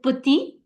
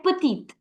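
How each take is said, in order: First: "petit" ending on the ee vowel, last t silent; silent final consonant. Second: "petite" with a clearly sounded t at the end; emphasized final t. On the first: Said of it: "do not pronounce the last consonant". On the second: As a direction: finish "petite" on a firm t. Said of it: "you emphasized on the the in the end". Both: Shown as a demonstration.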